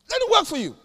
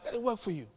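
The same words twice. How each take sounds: First: "Let it work for you" said much higher and louder, with "work" punched; preaching it louder. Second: Said in the usual way. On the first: Shown as a demonstration. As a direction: throw the repeat out to the church, high and loud. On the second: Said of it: "Let those principles work for you".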